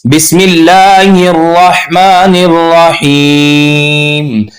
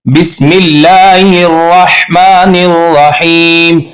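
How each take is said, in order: First: Slow, melodic Quran recitation; correct recitation. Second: Slow chanted but with wrong raa; wrong recitation. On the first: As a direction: recite it right, slowly. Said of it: "ये गलत है". (सही तिलावत) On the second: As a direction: recite the mistaken way. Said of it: "अब हम इसको ऐसे नहीं पढ़ेंगे". (गलत तिलावत) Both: Shown as a demonstration.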